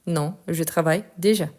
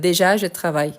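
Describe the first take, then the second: First: Said in the usual way. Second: «déjà» put first as a faulty example, slightly louder; teacher sets out the forbidden order «déjà, je travaille»; wrong word order example. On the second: Shown as a demonstration. Teacher showing students a wrong word order, firm.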